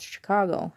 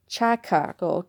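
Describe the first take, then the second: First: Said in the usual way. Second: "Chicago" said as "CHACK-ah-go"; hard "ch" and a "chack" first syllable in "Chicago"; variant pronunciation. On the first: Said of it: "it's Chicago". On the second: Shown as a demonstration. Puzzling over the city's name, "Chicago" mispronounced as "chack-ah-go". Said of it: "I'm even saying it different".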